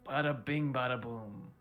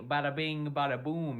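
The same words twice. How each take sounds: First: It is said in a flat, gloomy way. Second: It is said in a lively, cheerful way. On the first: "You sound like you're depressed" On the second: "I don't know why you had to say it that way"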